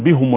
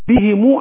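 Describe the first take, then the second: First: The first vowel is u, after the h. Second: The first vowel is i, with a final u. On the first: The speaker calls it wrong. "بيخطأ يقول بهم الارض بيضم الهاء" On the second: The speaker calls it right. "انا قلت بهمو"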